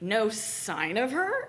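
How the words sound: It is said in an amused, mocking way.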